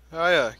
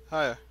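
First: Hiya called out louder; bright called-out Hiya; loud greeting. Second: Said in the usual way. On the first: Pretend. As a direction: shout Hiya across the room.

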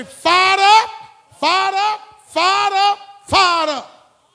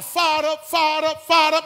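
First: High, loud chant of fired up; fired-up shout. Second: Rising shout, each fired up louder; fired-up holler. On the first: Shown as a demonstration. Preacher leading the congregation's chant, full shout. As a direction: roar it to get the crowd going. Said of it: "Somebody say". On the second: Pretend. Preacher hollering fired up to the congregation, building shout. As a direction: holler it to pump up the church. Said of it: "if I come in here, holler".

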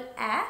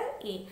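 First: "ए" as an open æ, as in cat; "ए" with the short a sound of bat; short vowel. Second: "ए" as ay, the alphabet name of A; "ए" with the long a sound of rain; long vowel. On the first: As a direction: say "ए" as the short phonic a. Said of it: "short vowel". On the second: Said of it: "long vowel". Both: Shown as a demonstration.

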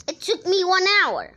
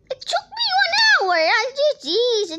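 First: Said in the usual way. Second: High wailing complaint; crying out. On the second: Real, not acted. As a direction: wail it, upset and loud. Child upset over lost hour.

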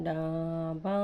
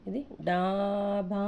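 First: డాబా with long aa in both syllables; long vowels. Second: డాబా with both aa vowels drawn out slowly; long vowels. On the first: Teacher repeating long డాబా for pupils, stretched vowels. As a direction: draw out డాబా, rising at the end. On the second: Teacher stretching డాబా for pupils, slow drawn vowels. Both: Shown as a demonstration. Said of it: "డాకు దీర్ఘం, బాకి దీర్ఘం".

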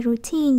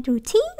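First: Said in the usual way. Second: Put-on "routine" with "teen" jumping up high; wrong rising tone. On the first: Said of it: "còn này routine dấu quyền". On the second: Shown as a demonstration. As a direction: mimic a misreading, "routine" with a sharp high tone on the end. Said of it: "nó đâu có phải routine đâu". (đọc sai "routine", lên giọng cao ở "teen")

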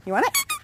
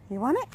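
First: Very high, teasing rise; high dog talk. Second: Said in the usual way. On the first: Real, not acted. Owner teasing Zeus with the squeaky ball, very high baby talk.

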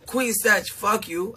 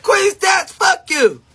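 First: Softer, dropping down, almost tender; softer take. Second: High, louder mock yell at a friend; mock shout. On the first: Retold or imitated. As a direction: take the curse back gently. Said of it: "then it be like". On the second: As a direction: fling it at her like a playful curse. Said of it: "I be like".

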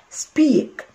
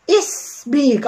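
First: "سبيك" starting straight on the s, drawn out slowly; no leading vowel. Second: Hurried "اسبيك" with a wrong vowel before the s; extra vowel in front. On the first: Teacher correcting the rushed mistake, slow "سبيك" beginning cleanly on the s. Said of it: "لا، سبيك". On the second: Teacher warning learners against rushing the spelling, "اسبيك" with a wrong leading vowel. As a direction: mispronounce it "اسبيك", starting on an added i. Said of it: "حاطه اي في الاول". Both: Shown as a demonstration.

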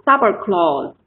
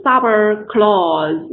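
First: "suburb clause" with the stress on "suburb", "clause" unstressed; stress on first word. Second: "sub clause" slowed, with "clause" dragged long and stressed too; wrongly stressed second word. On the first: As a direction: hit "suburb" first, let "clause" fall away. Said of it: "那重音节在前面啊". (suburb clause：重音在前面的suburb，clause不突出) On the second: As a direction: stretch the vowel of "clause" so it competes with "sub". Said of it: "如果我们读成sub clause，那变成后面也好像有点重读了". (sub clause：clause拖长，后面也重读) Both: Shown as a demonstration.

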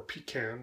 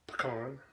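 First: Pecan said PEE-can, stress on the first syllable, flat A; pecan starting like "pee". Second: Pecan said puh-KAHN, stress on the broad second syllable; pecan ending like "con". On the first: Other way of saying pecan for another audience, PEE-can. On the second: First way of saying pecan, stressed puh-KAHN. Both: Shown as a demonstration. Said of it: "or pecan".

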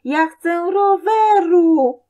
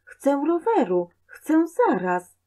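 First: High, very loud, drawn-out yell; tantrum scream. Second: Put-on high-pitched childish demand; stubborn whine, short of a scream; insistent child. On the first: Boy on the floor screams for bicycle, full tantrum. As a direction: scream it like a child kicking the floor. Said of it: "wali nogami w podłogę i krzyczy". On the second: Boy keeps demanding from mother, high and insistent. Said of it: "Przede wszystkim nie krzycz". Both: A narrator's reading.

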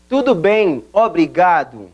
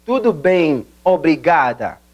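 First: Obrigado ending in u, obrigadu; male form obrigado. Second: Obrigada ending in a, obrigada; female form obrigada. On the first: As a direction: say obrigado as a man. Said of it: "si quien está hablando es un hombre". (forma masculina obrigado) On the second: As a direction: say obrigada as a woman. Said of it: "si quien está hablando es una mujer". (forma femenina obrigada) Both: Shown as a demonstration.

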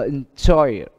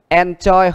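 First: "enjoy" stressed on JOY; stress on second syllable. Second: "enjoy" stressed on EN, high and loud; wrong stress on first syllable. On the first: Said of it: "âm nhấn đa phần nó lại được đặt ở âm thứ hai". ("enjoy" nhấn vào âm hai JOY) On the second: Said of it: "nếu như chúng ta đọc enjoy nó không có". ("enjoy" nhấn sai vào âm đầu EN) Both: Shown as a demonstration.

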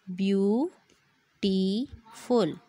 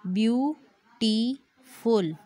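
First: ब्यूटीफुल drawn out very slowly, each syllable apart; split into syllables. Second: Said in the usual way. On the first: Shown as a demonstration. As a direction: spell out ब्यूटीफुल beat by beat as if clapping. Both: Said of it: "clap your hands to count the number of syllable".

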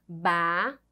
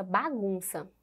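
First: "Bagunça" broken into ba, gun, ça with long pauses; split into syllables. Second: Said in the usual way. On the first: Shown as a demonstration. Teacher showing children the syllables of "Bagunça", syllable by syllable. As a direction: say "Bagunça" one separate syllable at a time. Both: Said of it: "Vamos separar esta palavra em sílabas".

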